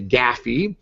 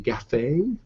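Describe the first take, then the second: First: It is two syllables rhyming with taffy. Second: It is two syllables rhyming with cafe. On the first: "Or taffy"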